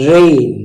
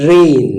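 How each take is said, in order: No difference in how they are said.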